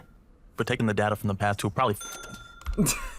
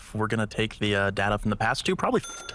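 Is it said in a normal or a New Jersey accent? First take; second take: New Jersey; normal. First: It is said in a New Jersey accent. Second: It is said in his normal accent.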